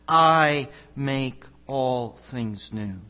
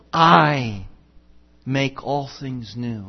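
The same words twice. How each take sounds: First: "I" weighted and slow, the whole line unhurried; solemn slow emphasis on "I"; emphatic I. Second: Said in the usual way. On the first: Shown as a demonstration. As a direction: lean hard on "I" then let the rest fall slowly. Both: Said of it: "it's an emphatic I".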